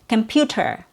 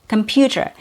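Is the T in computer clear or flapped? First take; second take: clear; clear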